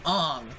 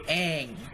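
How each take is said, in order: First: The vowel sounds like the one in 'song'. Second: The vowel sounds like the one in 'cat'. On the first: This is how the movie says the name. The speaker calls it wrong. "they pronounced it Ong" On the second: This is how the cartoon says the name. The speaker calls it right. "the cartoon where they say"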